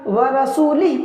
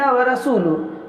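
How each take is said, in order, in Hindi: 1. शब्द 'i' स्वर पर ख़त्म होता है। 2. शब्द 'u' स्वर पर ख़त्म होता है।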